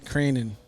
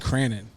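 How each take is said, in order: First: The first vowel sounds like the one in 'crane'. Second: The first vowel sounds like the one in 'can'. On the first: The speaker calls it right. "Crane and then N, like a crane" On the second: The speaker calls it wrong. "I call you Cranen like Cannon with an R"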